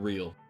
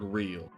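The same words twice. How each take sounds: First: It is said in a neutral accent. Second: It is said in a Southern accent.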